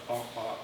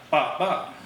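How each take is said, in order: First: "bop, bop" softly, with no stress on either; low, soft "bop, bop", both weak; both bops unstressed. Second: "bop, bop" punched hard on both beats; loud, firm "bop, bop"; both bops stressed. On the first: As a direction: say "bop, bop" as two light, unstressed beats. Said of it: "two unstressed together". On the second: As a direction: say "bop, bop" as two equally strong stresses. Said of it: "And then spondy". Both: Shown as a demonstration.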